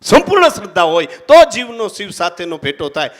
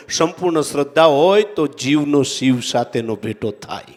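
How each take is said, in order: First: Emphatic repeat. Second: Said in the usual way. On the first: Shown as a demonstration.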